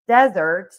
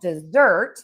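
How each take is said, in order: First: The stress is on the first syllable. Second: The stress is on the second syllable. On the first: It names a dry sandy place. "that is going to be stress on syllable number one" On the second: It names a sweet food eaten after a meal. "we are going to stress syllable number two"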